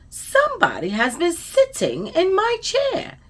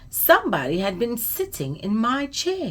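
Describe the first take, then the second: First: It is said in a sweet, gentle voice. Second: It is said in a loud, growly voice.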